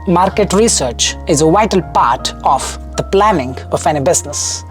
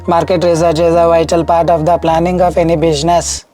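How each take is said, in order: First: Many words carry heavy, exaggerated stress. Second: Words are read plainly without exaggerated stress.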